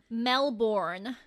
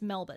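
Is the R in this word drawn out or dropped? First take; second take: drawn out; dropped. First: The R is drawn out in an American accent. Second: The R is dropped in an Australian accent. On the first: The speaker calls it wrong. "they draw out the R, because, like, obviously American accents have that very hard R" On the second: The speaker calls it right. "Like, just, it's Melbourne"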